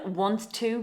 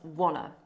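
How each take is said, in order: First: Both words are said fully and separately. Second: The words run together into one reduced word.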